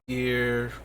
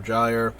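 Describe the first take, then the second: First: The word starts with a hard G sound. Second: The word starts with a soft G sound. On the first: "I prefer the hard G Gear" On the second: "it's probably Gyre for both"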